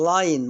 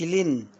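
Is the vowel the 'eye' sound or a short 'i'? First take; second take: eye sound; short i. First: The vowel is the long 'eye' sound. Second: The vowel is a short 'i' sound. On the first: The speaker calls it right. "لاين ما اقولش لين" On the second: The speaker calls it wrong. "ما اقولش لين"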